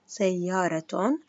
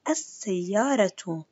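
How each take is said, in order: First: سيارة slowly with -ton ending; sayyaraton, stretched; bare word slow. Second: السيارة slowly, no l, double s, ending -u; assayyaratu, drawn out. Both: Shown as a demonstration. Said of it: "سأعيد قراءة الكلمات".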